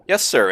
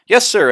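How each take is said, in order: First: It is said in a flat monotone. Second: It is said with lots of energy.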